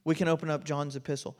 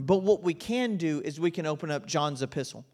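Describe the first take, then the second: First: "We can open up John's epistle" repeated fast and softer; quick soft echo. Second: Said in the usual way. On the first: Shown as a demonstration. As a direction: echo it quickly under your breath. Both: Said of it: "repeats the line".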